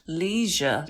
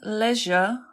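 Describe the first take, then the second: First: The word is said with an American accent. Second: The word is said with a British accent.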